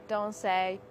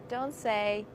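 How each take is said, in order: Both takes have the same delivery.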